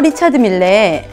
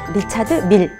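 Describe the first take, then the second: First: The name ends with an extra vowel sound. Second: The name ends on a consonant, no extra vowel. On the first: The speaker calls it wrong. "밀이라고 안 읽고 꼭 그 이를 발음하시더라고요" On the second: The speaker calls it right. "밀레가 아니라 리차드 밀이라고 교정을 해드리고 싶어요"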